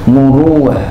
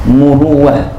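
The two takes are said the same way.

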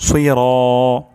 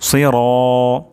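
The two takes are said the same way.

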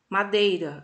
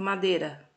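First: The word is said in full. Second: The word is said in a reduced form.

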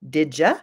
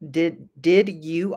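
First: The words are blended together into 'didja'. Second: The words are said separately with a clear D and Y. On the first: "becomes did you" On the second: "Did you often becomes"

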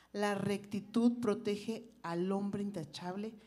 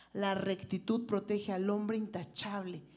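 Both takes have the same delivery.

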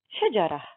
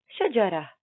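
Both takes have the same delivery.

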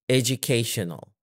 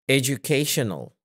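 No difference in how they are said.

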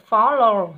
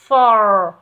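First: The word is said with two syllables. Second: The word is said with one syllable. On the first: The speaker calls it wrong. "không phải follow nhé" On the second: The speaker calls it right. "fall nhé"

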